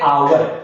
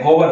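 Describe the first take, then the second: First: The word begins with a vowel sound. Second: The word begins with an h sound. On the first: The speaker calls it right. "H क्या होता है, silent होता है। इसको कैसे पढ़ते हैं, आवर" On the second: The speaker calls it wrong. "कुछ जने इसको क्या पढ़ते हैं, होवर ... ये होवर नहीं होता है"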